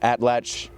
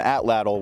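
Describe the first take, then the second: First: The word ends with a 'ch' sound. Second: The word ends with a 'tl' sound. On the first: The speaker calls it right. "you're supposed to do a little ch at the end of it" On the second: The speaker calls it wrong. "which is not even actually the correct pronunciation"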